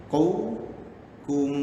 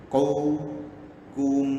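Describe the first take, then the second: No difference in how they are said.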